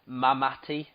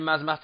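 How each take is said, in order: First: The name is said without an S sound. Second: The name is said with an S sound. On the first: The speaker calls it right. "it's got a silent S" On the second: The speaker calls it wrong. "I don't know if I'm pronouncing it"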